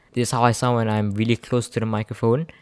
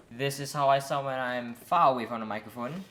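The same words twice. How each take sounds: First: Speaking right up at the microphone; close-miked, present voice; close to the mic. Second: Distant, softer sound; speaking from well back off the microphone; far from the mic. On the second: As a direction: step away from the mic and talk. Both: Shown as a demonstration.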